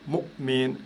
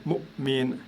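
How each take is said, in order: The two takes are said the same way.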